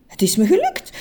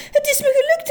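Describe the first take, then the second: First: Higher, happy call of success; first cheerful cry of success; glad cry. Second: Much higher, squealing with joy; the cry climbs into a squeal; delighted squeal. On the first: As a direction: announce the win with joy. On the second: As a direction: let it burst out in a high squeal. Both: A narrator's reading. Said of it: "riep meneer Just".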